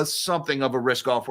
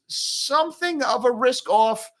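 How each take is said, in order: First: Said in the usual way. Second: Hedging over a market read, high-pitched drawn-out stress on "something". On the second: Shown as a demonstration. Market host qualifying a risk-off move, emphasis on "something". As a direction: stretch "something" slowly, pitched way up.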